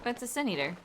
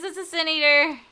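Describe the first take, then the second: First: Said in the usual way. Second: "It's a Sin Eater" yelled loud and high in mock alarm; mock alarmed shout. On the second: Streamer jokingly warning the party, "It's a Sin Eater" shouted. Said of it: "Run for your lives".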